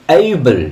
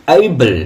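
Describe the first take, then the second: The two takes are said the same way.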